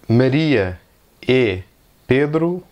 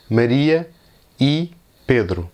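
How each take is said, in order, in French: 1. Le mot 'e' se prononce avec une voyelle 'eh'. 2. Le mot 'e' se prononce avec une voyelle 'ee'. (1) "au Brésil, il y a beaucoup de monde qui prononce e" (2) "la lettre E possède le son I"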